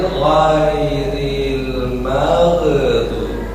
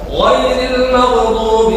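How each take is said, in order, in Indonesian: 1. Frasa ini dibacakan dengan lambat. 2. Frasa ini dibacakan dengan cepat. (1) "kalau dilambatin" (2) "kalau cepat"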